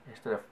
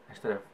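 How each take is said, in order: The two takes are said the same way.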